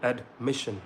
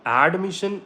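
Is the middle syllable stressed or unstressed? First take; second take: stressed; unstressed. First: The stress is on the middle syllable. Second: The stress is off the middle syllable. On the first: The speaker calls it right. "बीच में आपको stress करना है" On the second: The speaker calls it wrong. "This is wrong"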